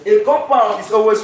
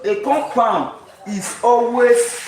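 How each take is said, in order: First: Said in the usual way. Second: "always" drawn out slowly for emphasis; slow right down and lean on "always"; higher, deliberate delivery, weight on "always"; stress on ALWAYS. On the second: Shown as a demonstration. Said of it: "emphasis on the always".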